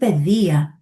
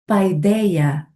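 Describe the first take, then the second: First: The first vowel is a plain 'e' sound. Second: The first vowel is a diphthong, like 'eye'. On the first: This is the modern reading of the word. "For me, it's pedia, like pedagogy" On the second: This is the older, ancient reading of the word. "is not paideia"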